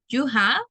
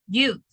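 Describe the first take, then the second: First: Both words are said fully and separately. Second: The two words merge into one short syllable.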